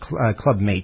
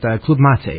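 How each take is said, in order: First: Mate is read like the English word mate. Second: Mate is not read like the English word mate. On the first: The speaker calls it wrong. "I say Club Mate, and I know that's wrong. because that's how it's spelled" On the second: The speaker calls it right. "Club Mate is how we probably should say it from now on"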